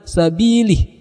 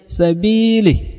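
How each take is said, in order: First: The final vowel of li is clearly pronounced. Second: The final vowel of li is dropped.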